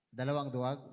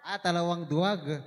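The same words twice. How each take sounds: First: Said in the usual way. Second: Pleased realization. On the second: Real, not acted. Finds the word, exclaims.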